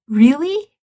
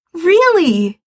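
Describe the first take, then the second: First: "Really?" high with a rising question; surprised question. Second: "Really!" higher, louder, falling; joyful confirmation. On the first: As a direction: ask "Really?" in hopeful disbelief. Asking in disbelief. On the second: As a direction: answer "Really!" with excited certainty. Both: Acted.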